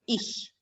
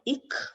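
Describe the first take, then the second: First: The ch is said as a soft sh. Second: The ch is said as a hard k. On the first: The speaker calls it right. "if it goes with I, then it takes the sh sound" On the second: The speaker calls it wrong. "this word is not ik"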